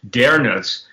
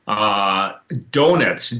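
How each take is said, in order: First: The first vowel is a rounded er sound. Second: The first vowel is a plain o sound.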